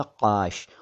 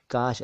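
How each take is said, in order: First: काश said as "qaash", k far back in throat; dotted q. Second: काश said as "kaash", ordinary front k; plain k, no dot. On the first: Teacher showing what a dot would make, काश as slow qaash. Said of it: "अगर आप लगा देंगे". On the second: Teacher contrasting it with the slice word, काश with plain k. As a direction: open काश with a simple k, not q. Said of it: "इसमें क के नीचे नुक्ता नहीं है". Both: Shown as a demonstration.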